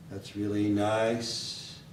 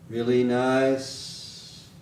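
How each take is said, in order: First: THAT'S REALLY NICE slow, level, pitched down; lower flat melody. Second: REALLY NICE slow and level; flat intonation. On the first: Teacher shows a lower melody, flat intonation in lower voice. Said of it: "maybe a lower voice, lower melody". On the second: Teacher demonstrates the flat melody to learners, flat intonation. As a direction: stretch REALLY NICE out on one pitch. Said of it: "Down here". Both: Shown as a demonstration.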